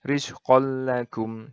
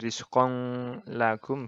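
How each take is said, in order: First: The n merges fully into a doubled l. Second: The n sound is pronounced before the l. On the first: The speaker calls it right. "Tapi rizqol lagum. Jadi langsung masuk ke lam ini" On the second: The speaker calls it wrong. "bukan rizqong lagum gitu, bukan"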